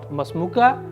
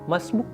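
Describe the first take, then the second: First: The two words merge into three syllables. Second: The words merge and the final vowel drops. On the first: "alif with alif silent" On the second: "even kaf silent"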